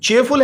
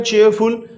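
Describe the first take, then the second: First: Said in the usual way. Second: चीयरफुल split into "cheer" and "ful"; syllable by syllable. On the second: Shown as a demonstration. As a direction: sound out both syllables of चीयरफुल. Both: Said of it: "दो syllable हैं".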